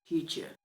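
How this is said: It is said with a native English accent. "वो कहता है"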